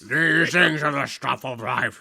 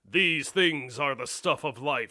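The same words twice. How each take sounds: First: The voice is mumbled, as if marbles in mouth. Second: The voice is clear, without mumbling.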